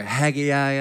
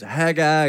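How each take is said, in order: First: Haggai said in three syllables, HAG-ee-eye; back-home pronunciation. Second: Haggai said in two syllables, HAG-eye; standard pronunciation. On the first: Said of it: "back home, uh, we pronounced it". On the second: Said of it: "I don't know if it's Haggai or". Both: Shown as a demonstration.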